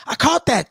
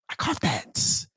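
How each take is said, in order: First: Said in the usual way. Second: Breathy whisper of a gleeful catch; soft, voiceless I caught that; whispered aside. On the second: Real, not acted. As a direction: whisper it to yourself.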